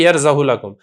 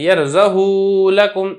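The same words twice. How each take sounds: First: The vowel after h is kept short. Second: The vowel after h is drawn out long. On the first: The speaker calls it right. "लंबा किए बगैर पढ़ा जाएगा, और आप इसको पढ़ेंगे" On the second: The speaker calls it wrong. "इसको आप लंबा नहीं करेंगे, यरज़हु लकुम ऐसे नहीं पढ़ेंगे"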